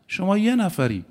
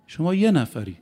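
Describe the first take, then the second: No difference in how they are said.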